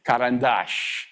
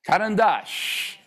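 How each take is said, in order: First: Karandash said slowly with the stress on the last syllable, falling; Russian word said slowly. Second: Karandash higher and very slow, savoring the final stressed syllable; relished Russian word. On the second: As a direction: sing out Karandash slowly, loving the last syllable. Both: Shown as a demonstration. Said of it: "I want you to say these".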